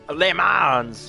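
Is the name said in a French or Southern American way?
Southern American. The name is said with a Southern American pronunciation. "the redneck, you know, where I'm from, the Southern American Le Mans"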